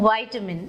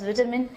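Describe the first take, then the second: First: It is said with an American pronunciation. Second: It is said with a British pronunciation. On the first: This is how people returning from the US say it. "they go to U S and come back from U S and they start pronouncing vitamin" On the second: This is how it was taught at school. "my teachers always told me to say vitamin. I pronounced it as vitamin"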